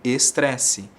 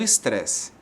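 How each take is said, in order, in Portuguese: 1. As vogais do início e do fim são pronunciadas plenamente. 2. As vogais do início e do fim quase somem. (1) "nós escrevemos como estresse" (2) "Come um pouquinho o E no começo e no final"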